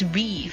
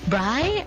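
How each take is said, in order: First: The vowel sounds like 'ee'. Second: The vowel sounds like 'eye'. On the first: The speaker calls it right. "turns out it's Bree because it's Brielle" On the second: The speaker calls it wrong. "I thought it's Bry"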